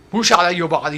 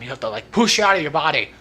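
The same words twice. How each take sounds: First: Wario voice. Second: Said in the usual way. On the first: Shown as a demonstration. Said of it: "deeper version of Mario".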